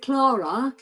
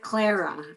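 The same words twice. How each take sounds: First: Clara as CLAH-ra, open first vowel; CLAH-ra pronunciation. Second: Clara as CLAIR-a, first vowel as in "air"; CLAIR-a pronunciation. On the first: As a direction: say Clara with an "ah", offering it as an option. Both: Shown as a demonstration. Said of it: "wanna say it properly".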